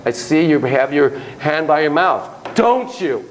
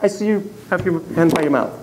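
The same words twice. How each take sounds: First: Statement with "Don't you?" tacked on, rising; turned into a question. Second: "mouth." falling, with no question after it; left as a comment. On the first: Therapist to a child, tagging the remark with a rising "Don't you?". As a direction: end the observation by asking "Don't you?". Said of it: "you'll change it into a question". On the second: Therapist to a child, just noting it, with a falling end. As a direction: state it flatly and stop at "mouth.". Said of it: "leave it as a comment". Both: Shown as a demonstration.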